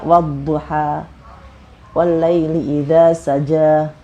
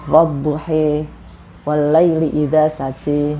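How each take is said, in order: First: The final vowels are an open 'a'. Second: The final vowels are raised toward 'e'. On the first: This is the Hafs reading used in Indonesia. "kita membacanya" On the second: This is the Warsh reading used in Morocco. "Warosh itu misalnya contohnya"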